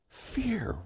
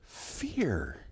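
First: Fear whispered, much higher and softer. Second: Said in the usual way. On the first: Shown as a demonstration. Sermon topic word said twice.

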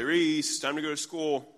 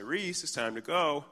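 First: Higher, louder retold call from the hall; second call. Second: Mild retold call, raised in pitch; calling from hall. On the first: Dad calling daughter a second time, raised louder voice. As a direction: call the child with more push. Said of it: "I say it a second time". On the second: Dad to daughter from the hall, mild higher call. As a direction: lightly call a child from another room. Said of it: "I say from the hall".

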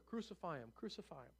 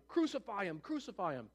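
First: Soft, falling echo of the chant; muted mock shout, dying away; hushed crowd cry. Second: Understated crowd chant; mild mock shout, repeated; a touch of a demanding mob. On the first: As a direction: say the shout quietly, letting it fade. Crowd's cry, repeated softly afterwards. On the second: A narrator's reading. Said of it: "they just kept shouting".

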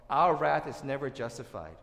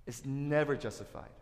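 First: OUR wrath hit loud, then "never justified" stated firmly; emphatic declaration. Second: "never" leaned on and stretched, "justified" falling away; stress on NEVER. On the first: Preacher telling friends the one thing to remember, emphatic. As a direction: punch "our" and drive the point home. Repeats key point for emphasis. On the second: Preacher repeating the key point to friends, NEVER stressed. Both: Real, not acted.

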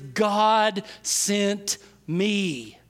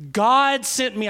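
First: Each word drawn out slowly; very slow emphatic quote. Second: Louder firm repeat. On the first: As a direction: stretch out every word of "God sent me". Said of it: "His response is". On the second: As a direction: punch "God" louder. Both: Shown as a demonstration.

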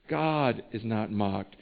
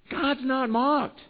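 First: Low, slow and soft, every word weighted; low grave refrain. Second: High, slow, every word weighted; solemn emphatic refrain. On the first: Preacher closing the point with the refrain, low and slow. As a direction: drop down and let it sink in. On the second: Preacher repeating the refrain to the congregation, slow and high. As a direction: lay down the verdict slowly. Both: Acted. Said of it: "preaching refrain".

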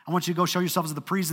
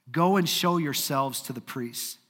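First: Rattled off fast and casual; quick casual paraphrase. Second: Said in the usual way. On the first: Retold or imitated. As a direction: toss it off quickly, like an easy instruction. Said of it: "kinda like this little faith step". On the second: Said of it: "Jesus looked at these men and said".

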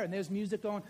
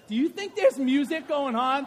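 First: Said in the usual way. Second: Loud, rising call to the room; louder question. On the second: Real, not acted. Preacher asking the congregation about the music, loud rising call. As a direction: lift it up and throw the question out loud.

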